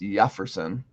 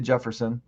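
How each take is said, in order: First: The name is pronounced the Spanish way. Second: The name is pronounced the English way. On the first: The speaker calls it right. "but it's Jefferson, which makes sense because it's Spanish" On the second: The speaker calls it wrong. "I say Jefferson"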